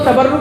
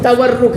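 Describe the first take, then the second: First: The second consonant is a b sound. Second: The second consonant is a w sound. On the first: The speaker calls it wrong. "आज लोग तबर तबर्रुक बोल देते हैं, वो तबर्रुक नहीं है" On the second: The speaker calls it right. "तवर्रुक वाव से"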